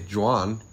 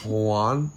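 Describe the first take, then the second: First: The name begins with a hard J sound. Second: The name begins with a soft H sound. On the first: The speaker calls it wrong. "You don't say" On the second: The speaker calls it right. "It's an H"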